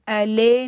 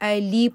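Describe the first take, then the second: First: The second vowel sounds like 'e' in get. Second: The second vowel sounds like 'ee' in meet. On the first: The speaker calls it wrong. "अले नहीं पढ़ना" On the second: The speaker calls it right. "अली पढ़ना है, ई आवाज जो है वो अदा करनी है"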